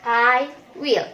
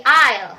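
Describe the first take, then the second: First: "I will" as two slow, separate words; uncontracted I WILL. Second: "I'll" merged into one syllable; contracted I'LL. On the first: Teacher giving the required form, full slow "I will". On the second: Teacher showing the forbidden form, contracted "I'll". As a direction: run "I" and "will" together as "I'll". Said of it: "tidak boleh disingkat jadi". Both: Shown as a demonstration.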